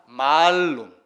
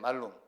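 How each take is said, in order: First: The first vowel is long. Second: The first vowel is short. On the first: It means apple. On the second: It means evil.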